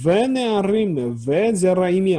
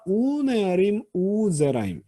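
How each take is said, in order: First: Each word begins with a v consonant. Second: Each word begins with an u vowel. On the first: The speaker calls it wrong. "아니라" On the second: The speaker calls it right. "V가 우로 바뀌는"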